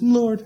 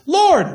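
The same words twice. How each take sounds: First: The word is said at normal loudness. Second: The word is said loudly, like a yell.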